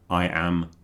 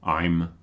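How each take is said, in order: First: Both words are said fully and separately. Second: The words are merged into one syllable.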